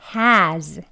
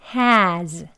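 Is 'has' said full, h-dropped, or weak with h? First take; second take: full; full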